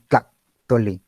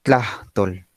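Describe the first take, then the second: First: "Tlachtole" with a glottal stop after "Tla"; saltillo. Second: "Tlachtol" with a breathy h closing the first syllable; aspiration. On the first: Teacher imitates saltillo regions, "Tlachtole" broken by a glottal stop. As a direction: shut the throat briefly before "tole" in "Tlachtole". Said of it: "las regiones que manejan el saltillo". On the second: Teacher shows own region's way, "Tlachtol" with aspiration. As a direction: let air escape before the "tol" of "Tlachtol". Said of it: "esta aspiración". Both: Shown as a demonstration.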